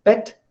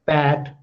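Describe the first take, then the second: First: "Pet" with a short, less open EH; crisp short "Pet" for contrast; less open vowel. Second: "pat" with a wide-open A as in cat; longer, open-vowel "pat" for contrast; more open vowel. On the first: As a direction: say Pet with the mouth only a little open. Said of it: "there is a difference between pet and pat". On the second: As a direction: open the mouth wider for pat. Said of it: "when I say pat". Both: Shown as a demonstration.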